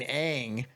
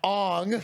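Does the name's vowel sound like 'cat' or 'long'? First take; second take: cat; long. First: The vowel sounds like the one in cat. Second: The vowel sounds like the one in long. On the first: The speaker calls it right. "his name is fucking Aang" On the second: The speaker calls it wrong. "not Ong. You dumb heathens!"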